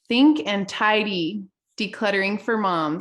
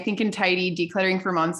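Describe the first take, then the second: First: It is said slowly and deliberately. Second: It is said at a normal, quick pace.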